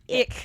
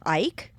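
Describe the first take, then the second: First: The vowel is short, as in kick. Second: The vowel sounds like the word eye. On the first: "the whole time I kept going ick" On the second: "I'm going to say Ike"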